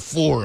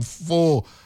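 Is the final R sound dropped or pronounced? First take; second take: pronounced; dropped. First: The R sound at the end is pronounced hard. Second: The R sound at the end is dropped.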